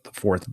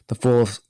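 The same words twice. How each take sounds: First: Said in the usual way. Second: Higher put-on villain voice, vowel rounded in "fourth"; Klaus. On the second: Podcast guest mimicking Klaus for his co-host, villainous impression. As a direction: try out a super-villain voice on "fourth". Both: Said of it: "I'm trying to do Klaus".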